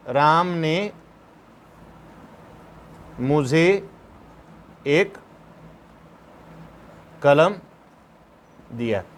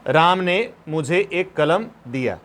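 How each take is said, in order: First: "Ram ने" "मुझे" "एक" "कलम" "दिया" each set apart by long pauses; slow dictation, word by word. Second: Said in the usual way. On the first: Shown as a demonstration. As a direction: read it out for students to write down. (एक-एक शब्द रुककर लिखवाना) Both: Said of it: "इसका हिंदी क्या होगा?".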